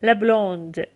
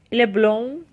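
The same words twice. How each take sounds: First: بلوند with an audible D ending; French feminine "بلوند", d sounded; final D pronounced. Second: بلون ending on a nasal vowel; French masculine "بلون" without a closing d; silent final D. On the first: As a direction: release the D at the end of بلوند. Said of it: "د تلفظ میشه". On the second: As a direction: drop the D from بلون. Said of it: "د تلفظ نمیشه". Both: Shown as a demonstration.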